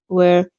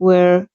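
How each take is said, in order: No difference in how they are said.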